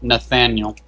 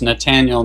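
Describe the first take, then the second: First: The middle consonant is a th sound. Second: The middle consonant is a plain t sound. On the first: The speaker calls it wrong. "I thought it was with a T H" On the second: The speaker calls it right. "So it's Nathaniel"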